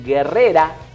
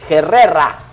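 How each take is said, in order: First: The name begins with a hard g sound. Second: The name begins with a raspy h-like sound. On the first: The speaker calls it wrong. "no es guerrera, como uno lo diría" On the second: The speaker calls it right. "no está escrito con G U, sino con la G sola"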